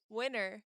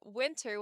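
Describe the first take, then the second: First: Spoken fast with the T sound dropped. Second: Spoken slowly with a clear T sound. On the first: "if I were speaking very fast, I would say winter" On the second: "I'm pronouncing it winter with a T because I'm speaking very slow"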